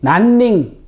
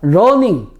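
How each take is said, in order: First: The word begins with an N sound. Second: The word begins with an L-like sound. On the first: "난닝이 되는 겁니다" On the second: "러닝 이거에서"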